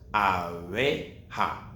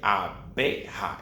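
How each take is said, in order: First: The b is soft, lips barely touching. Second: The b is strong, lips pressed together. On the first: The speaker calls it right. "its sound is weak" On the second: The speaker calls it wrong. "It's not a strong sound like abeja"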